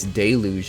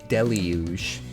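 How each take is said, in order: First: The first part does not sound like deli. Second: The first part sounds like the word deli. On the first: "I pronounced this Deluge of Doom" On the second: "it's supposed to be pronounced Deluge"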